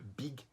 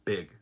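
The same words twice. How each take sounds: First: It is said with a Brazilian Portuguese accent. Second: It is said with a native English accent. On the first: The speaker calls it wrong. "muitos brasileiros dizem big, big. Mas não é big" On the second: The speaker calls it right. "é big"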